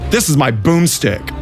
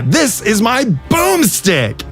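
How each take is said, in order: First: It is said flatly with little energy. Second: It is said with lively, punchy inflection. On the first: The line loses its fun. The speaker calls it wrong. "Instead of" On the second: The line becomes an iconic moment. The speaker calls it right. "Think of like iconic"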